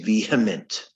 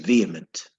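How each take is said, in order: First: The H sound is clearly pronounced. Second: The H sound is left silent. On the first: The speaker calls it wrong. "do not pronounce the H. Don't say vehement" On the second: The speaker calls it right. "it's silent. So you say vehement"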